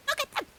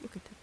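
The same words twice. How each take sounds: First: High, loud squeal of delight; sudden high excited squeal; squealing excitedly. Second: Hushed. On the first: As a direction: squeal it at something adorable. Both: Real, not acted.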